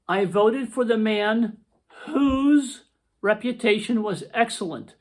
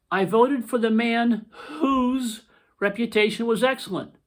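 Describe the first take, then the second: First: Slow, careful read of the example; reading a sample sentence. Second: Rereading the sample sentence. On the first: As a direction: read it out slowly so the class can follow. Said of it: "here's another sample sentence". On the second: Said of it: "here's the second sample sentence". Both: Shown as a demonstration.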